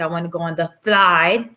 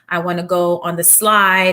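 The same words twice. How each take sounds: First: The S sound is said in a distorted way. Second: The S sound is said clearly. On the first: This is how it comes out for the child. The speaker calls it wrong. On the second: This is what the child intends to say. The speaker calls it right.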